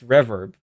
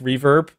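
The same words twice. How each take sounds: First: The first vowel sounds like 'air'. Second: The first vowel sounds plain, not like 'air'. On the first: This is the technically correct accented form. "that's supposed to make it like an air sound" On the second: This is how the owners of the name say it. "they told us it's just reverb"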